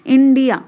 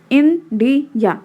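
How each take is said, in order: First: Said in the usual way. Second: India slowly broken into three beats; split into syllables. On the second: Shown as a demonstration. Teacher showing a country's three syllables, India split in three. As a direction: pause between each syllable of India. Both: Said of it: "three syllable".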